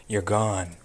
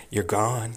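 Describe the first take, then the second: No difference in how they are said.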